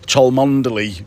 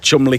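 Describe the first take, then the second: First: The name is said with four full syllables. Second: The name is shortened to two syllables. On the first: This is how visitors read it off the map. The speaker calls it wrong. "so that's how people pronounce it" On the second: This is how locals actually say it. The speaker calls it right. "but it's actually Chumley Castle"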